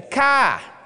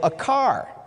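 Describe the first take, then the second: First: It has a Maine accent, r dropped. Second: It has a general American accent, r pronounced.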